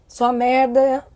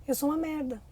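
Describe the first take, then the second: First: Said in the usual way. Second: Quase sussurrado, bem mais baixo, como quem se rende; voz baixa, derrotada. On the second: Retold or imitated. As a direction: diga isso baixinho, para dentro, como criança que se culpa. (bem baixinho e derrotado) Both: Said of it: "ela registra um significado".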